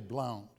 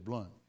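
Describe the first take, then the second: First: The name is said in a non-Southern way. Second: The name is said the Southern, Arkansas way.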